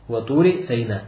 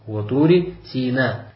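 First: The name's first syllable sounds like 'sigh'. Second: The name's first syllable sounds like 'see'. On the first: This is the variant reading attributed to another early reciter. "от него пришло, что он читал Ватури Сайна" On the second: This is the variant reading attributed to one early reciter. "Это чтение ибн Масуда, который читал ва Тури Сина"

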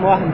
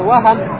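First: No vowel comes between the h and m. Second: A short a vowel comes between h and m. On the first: It means doubt. "А если с сукуном" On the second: It means a slip or mistake. "фатха это ошибка, оплошность"

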